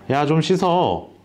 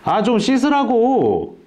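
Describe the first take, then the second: First: It is said in a calm voice. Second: It is shouted in a loud voice.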